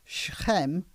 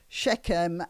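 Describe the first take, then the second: First: The name is said with a Hebrew pronunciation. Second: The name is said with an English pronunciation. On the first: "Hebrew it's called" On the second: "in English it's called"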